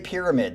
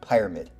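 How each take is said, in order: First: The first syllable sounds like 'peer'. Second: The first syllable sounds like 'pyro'. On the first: This is the ordinary word for the shape. The speaker calls it wrong. "Don't say Pyramid. That would be the correct way to say it" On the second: This is the name used on this channel. The speaker calls it right. "Get it right, because he's a pyro"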